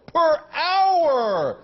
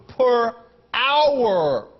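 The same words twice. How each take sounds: First: Per hour! said higher, stressed on hour; indignant emphasis on Per hour!; outraged repeat. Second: Said in the usual way. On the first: Real, not acted. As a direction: hit hour in disbelief. Repeating a salary figure in outrage.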